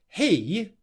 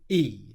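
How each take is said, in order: First: The word begins with an audible H sound. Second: The word begins without any H sound. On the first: The speaker calls it right. "I'd just like to hear that H sound being pronounced he" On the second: The speaker calls it wrong. "instead of e"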